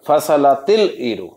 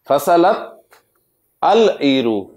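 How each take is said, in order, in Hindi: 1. शब्द 'il' की ध्वनि के साथ जुड़े होते हैं। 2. आर्टिकल 'al' की तरह अलग से बोला जाता है।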